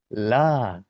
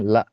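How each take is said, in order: First: The long vowel flows on without stopping. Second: The vowel is cut off by a glottal stop. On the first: The speaker calls it right. "Biarkan dia mengalir" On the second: The speaker calls it wrong. "mungkin terkadang dijumpai di sebagian kita membacanya la"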